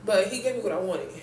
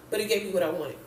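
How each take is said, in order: Both takes have the same delivery.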